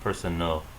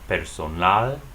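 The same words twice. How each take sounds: First: The last syllable has a weak uh vowel. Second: The last syllable has a full ah vowel. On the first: "The A here sounds like uh" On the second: "as they would sound in Spanish. Remember, A is always pronounced A"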